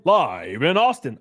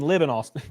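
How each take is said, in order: First: "live" said with a long i, like the adjective, slowly; live as lyve. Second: "live" said with a short i, as in give; live as liv. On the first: Streamer misreads chatter's "live" with a long i, slowly. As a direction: read "live" to rhyme with five, drawn out. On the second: Streamer corrects himself, saying "live" with a short i. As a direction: read "live" as the verb, short i. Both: Shown as a demonstration. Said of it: "Oh, you mean live in Austin?".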